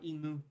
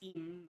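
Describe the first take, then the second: First: The name ends with an added mu syllable. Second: The name ends on the m sound. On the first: The speaker calls it wrong. "There's like the the the mu part at the end added on" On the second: The speaker calls it right. "it's im"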